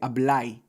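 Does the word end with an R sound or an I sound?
I sound. It ends with a Cibaeño I sound.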